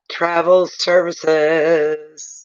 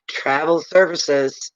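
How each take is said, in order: First: Travel services stretched very slow; drawn-out repeat. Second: Said in the usual way. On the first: Shown as a demonstration. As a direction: drag out Travel services for emphasis.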